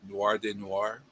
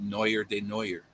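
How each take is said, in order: First: Noir is said like 'nwar'. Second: Noir is said like 'newer'.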